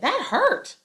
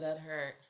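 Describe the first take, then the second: First: It is said loudly, like a yell. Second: It is said calmly and quietly. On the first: The speaker calls it right. "You're going to say" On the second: The speaker calls it wrong. "you usually aren't going to just say that"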